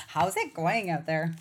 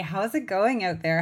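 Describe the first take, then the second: First: Said in the usual way. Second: Friendly Canadian accent, rounded vowels. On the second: Real, not acted. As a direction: let the Canadian accent slip out. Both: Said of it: "my Canadian accent just came out there".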